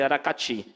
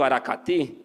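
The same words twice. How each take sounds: First: It is said in a Rio accent with hissing sounds. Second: It is said in the speaker's own regional accent. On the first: "alguém do Rio, alguém que tenha um chiadozinho" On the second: "eu digo da minha forma"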